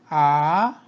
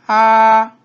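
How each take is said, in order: First: The pitch rises from mid to high. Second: The pitch stays high and level.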